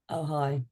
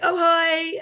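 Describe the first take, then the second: First: The greeting sounds flat and unwelcoming. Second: The greeting sounds warm and smiling. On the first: The person is not pleased to see the visitor. The speaker calls it wrong. "instead of going" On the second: The person is glad to welcome the visitor. The speaker calls it right. "it's opening that smile when somebody comes in"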